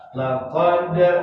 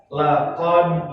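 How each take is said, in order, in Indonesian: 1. Bunyi d di akhir langsung dipantulkan keluar. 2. Bunyi d di akhir ditahan tanpa dipantulkan. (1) "itu tanda qalqalah sughra itu mantulnya langsung" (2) "jangan ditahan, jangan baca begini laqad, salah"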